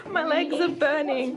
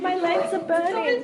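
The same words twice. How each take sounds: First: Cycling hard, legs burning; panting through effort on the bike; out of breath. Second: Pushing harder, voice strained; gasping it out mid-effort; straining, louder. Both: Real, not acted.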